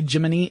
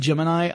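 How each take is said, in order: First: The word ends with an 'ee' sound. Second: The word ends with an 'eye' sound. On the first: This is the old NASA pronunciation. The speaker calls it wrong. "I refuse to say Jiminy" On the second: This is the speaker's own usual pronunciation. The speaker calls it right. "I say Gemini"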